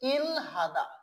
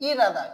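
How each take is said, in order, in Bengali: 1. l এবং h দুটো ধ্বনিই উচ্চারণ হয়। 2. h বাদ যায় এবং r শোনা যায়। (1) "এমনিতে যদি আমরা উচ্চারণ করি" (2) "সঠিকভাবে উচ্চারণ করতে চাই"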